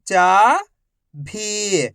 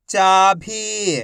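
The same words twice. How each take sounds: First: Each syllable slowly held, first one rising. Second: Whole word in one go, vowels held; syllables joined. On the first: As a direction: break the word into long, separate syllables. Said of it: "एक अक्षर का उच्चारण करके". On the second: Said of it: "तो मिलके बन जाएगा". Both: Shown as a demonstration.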